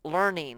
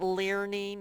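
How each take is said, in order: First: The E A letters make no separate sound. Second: The E A letters get their own vowel sound. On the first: The speaker calls it right. "it's learning" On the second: The speaker calls it wrong. "It's not learning"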